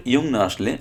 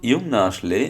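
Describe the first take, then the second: No difference in how they are said.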